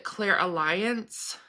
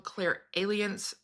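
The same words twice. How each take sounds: First: "clairalliance" stressed on LI, as clair-a-LIE-ance; teacher's pronunciation. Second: "clairalience" as clair-AY-lee-ence; learned pronunciation. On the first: Retold or imitated. Quoting the circle leader's version, "clairalliance" said clair-a-LIE-ance. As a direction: say "clairalliance" slowly, rhyming its end with "alliance". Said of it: "which she called it clairalliance".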